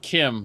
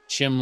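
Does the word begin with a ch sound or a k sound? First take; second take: k sound; ch sound. First: The word begins with a hard k sound. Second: The word begins with a ch sound. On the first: "like chimera" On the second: "Chim like cheese"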